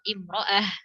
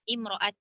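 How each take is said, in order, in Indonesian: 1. Kata ini diakhiri dengan bunyi h. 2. Kata ini diakhiri dengan bunyi t. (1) "misalnya yang ta-nya marbuthoh" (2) "kalau misalnya ta yang maftuhah, kita berhentinya gimana? Dengan ta kan?"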